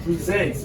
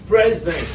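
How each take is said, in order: First: "Present" as pree-ZENT, ee in the first syllable; the other pronunciation. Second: "Present" as PREZ-ent, short e first; first-syllable stress. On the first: Teacher gives class the other word, "Present" said pree-ZENT. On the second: Teacher quizzes class on the two words, "Present" said PREZ-ent. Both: Shown as a demonstration. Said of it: "The other one is what?".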